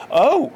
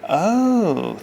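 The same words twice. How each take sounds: First: "Oh" much higher and louder, emphatic; emphatic realizing "Oh"; more emphasis. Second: Said in the usual way. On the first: A narrator's reading. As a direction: hit "Oh" hard with realization. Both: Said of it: "he repeated with more emphasis".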